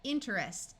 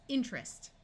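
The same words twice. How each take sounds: First: Every sound in the middle is pronounced. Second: One sound in the middle is left out. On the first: "instead of sounding like interest" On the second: "speaking this word quickly in American English, this sound here usually completely disappears"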